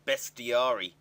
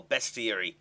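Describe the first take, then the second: First: Bestiary ending in -ARY, like "best-ee-AH-ree"; alternative pronunciation. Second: Bestiary ending like "airy", "best-ee-AIR-ee"; alternative pronunciation. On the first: Vlogger trying a pronunciation of the monster database, Bestiary as "best-ee-AH-ree". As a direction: say Bestiary with an open "ah" before the final -ry. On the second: Vlogger offering another pronunciation of the monster database, Bestiary as "best-ee-AIR-ee". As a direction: say Bestiary with an "air" sound before the final -ee.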